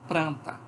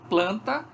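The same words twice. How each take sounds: First: The word is said with an R after p. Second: The word is said with an L after p.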